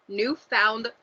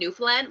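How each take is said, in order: First: The d sounds are pronounced in the word. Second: The d sounds are dropped from the word. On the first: This is how outsiders say it. The speaker calls it wrong. "I gotta pronounce it properly" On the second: This is how locals say it. The speaker calls it right. "We say it Newfoundland. We don't say the D's at all"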